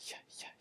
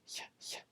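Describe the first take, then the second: The two takes are said the same way.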